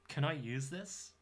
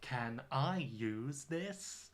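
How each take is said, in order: First: The words run together with changed sounds. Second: Each word is said separately and clearly. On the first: The speaker calls it right. "We would say, ... when you're connecting words together, you know, pronunciation changes" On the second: The speaker calls it wrong. "We don't say"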